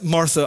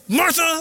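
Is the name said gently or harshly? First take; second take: gently; harshly. First: The name is said in a soft, gentle tone. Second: The name is said in a harsh, sharp tone. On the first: The speaker is calm and caring. The speaker calls it right. "It's a gentle, like, Martha" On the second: The speaker is scolding and frustrated. The speaker calls it wrong. "it's not Martha"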